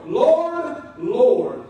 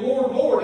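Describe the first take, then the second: First: Loud and urgent, the second "Lord" falling; pleading Lord, Lord. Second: Each "Lord" pressed down louder and falling; a loud, heavy "Lord, Lord"; emphatic Lord, Lord. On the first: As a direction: cry out "Lord" up high, then bring the second down. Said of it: "puts emphasis on the message". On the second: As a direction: lean hard on both "Lord"s. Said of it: "they're with emphasis". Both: Shown as a demonstration.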